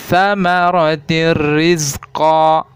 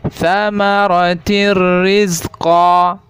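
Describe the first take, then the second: No difference in how they are said.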